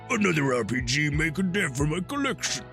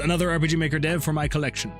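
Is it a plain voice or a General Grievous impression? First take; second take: General Grievous; plain voice. First: It is said in a General Grievous impression. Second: It is read in a plain normal voice.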